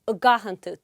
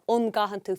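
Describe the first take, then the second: First: The first word is reduced to a short vowel. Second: The first word is a full 'an' sound. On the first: "feitura y gahan tú" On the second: "ní gá an gahan tú"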